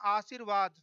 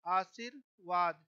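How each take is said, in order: First: Said in the usual way. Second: आशीर्वाद said slowly, every syllable drawn out; teacher stretching आशीर्वाद for pupils; slow spelled-out word. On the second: Shown as a demonstration. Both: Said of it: "ऐसे शुद्ध लिखा जाता है".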